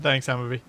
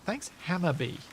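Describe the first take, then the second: First: The words are slurred together, consonants dropped. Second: The words are articulated clearly, consonants kept. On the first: The speaker calls it wrong. "without any consonants whatsoever" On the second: The speaker calls it right. "to slur that a little bit less"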